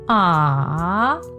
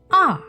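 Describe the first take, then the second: First: The pitch dips down and then rises. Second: The pitch falls sharply from high to low. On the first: "your voice must go down" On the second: "Just let your voice go all the way down"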